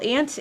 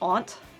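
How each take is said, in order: First: It is said in a Wisconsin accent. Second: It is said in a Maine accent. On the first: "is definitely how we say it in Wisconsin" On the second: "my aunt from Maine came to visit, and she says aunt"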